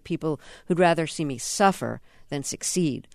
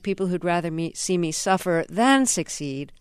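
First: The word 'than' is said without stress. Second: The word 'than' is said with stress. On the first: "if I was saying that, I'd probably refer to" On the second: "And the accent is on the than"

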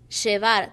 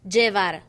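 First: The 'll' is said with an 'sh' sound. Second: The 'll' is said without an 'sh' sound. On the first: This is the Argentine way of saying it. The speaker calls it wrong. "I said llevar" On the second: This is the Puerto Rican way of saying it. The speaker calls it right. "Puerto Ricans said llevar, not sh"

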